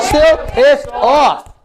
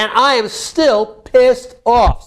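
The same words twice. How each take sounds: First: Very slow, higher, each word hammered; demonstrated angry outburst. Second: Pissed off, stretched out slowly; demonstrated anger. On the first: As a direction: drag out every word in mounting anger. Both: Shown as a demonstration. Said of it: "Say it like that".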